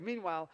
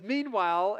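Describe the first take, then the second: First: Said in the usual way. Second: Drawn-out ominous Meanwhile with a rising tune; storyteller's ominous Meanwhile; dramatic meanwhile. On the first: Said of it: "Jesus is like". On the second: Shown as a demonstration. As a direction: say Meanwhile like a suspense cue. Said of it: "and the music goes dun".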